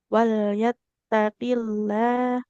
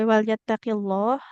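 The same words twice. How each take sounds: First: The 'llah' is pronounced thin and light. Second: The 'llah' is pronounced thick and heavy. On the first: The speaker calls it right. "dibaca tebal hanya kalau huruf sebelumnya berharokat fathah atau dhammah" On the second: The speaker calls it wrong. "nggak boleh wal yattaqillah"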